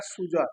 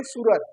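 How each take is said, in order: First: सूजर with the ज and र swapped from सूरज; teacher demonstrating a child's mix-up, सूजर with swapped sounds; child's metathesis. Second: Said in the usual way. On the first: Shown as a demonstration. बच्चे की तरह सूजर बोलना. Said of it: "तो बोल देगा सूजर". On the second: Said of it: "क्या बोलना है?".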